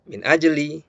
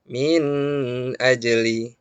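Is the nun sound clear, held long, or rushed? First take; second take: rushed; held long. First: The nun sound is rushed and nearly lost. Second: The nun sound is held too long. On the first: "jangan juga terlalu cepat" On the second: "jangan kita baca min ajli. Nah, ini keliru"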